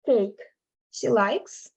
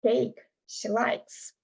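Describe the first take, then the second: First: "Cake she likes?" with a pause after "Cake" and a rise on "likes"; question tune. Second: "Cake she likes." slow and softer, falling like a statement; statement tune. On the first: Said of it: "turn it into a question". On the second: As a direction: say "Cake she likes." slowly as a plain fact. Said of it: "cake she likes would be like". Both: Shown as a demonstration.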